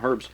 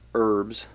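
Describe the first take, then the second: First: The word starts with an h sound. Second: The word starts without an h sound. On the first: The speaker calls it wrong. "I keep putting the H in there" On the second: The speaker calls it right. "or herbs"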